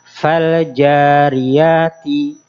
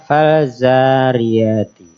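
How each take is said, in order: First: The j is strong, held then released. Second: The j is softened into a z sound. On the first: The speaker calls it right. "jim huruf yang kuat" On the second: The speaker calls it wrong. "jangan terbaca menyerupai huruf zai"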